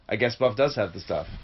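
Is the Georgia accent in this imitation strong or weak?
weak. It is spoken with only a weak Georgia accent. The speaker calls it wrong. "You weren't Georgia enough for that"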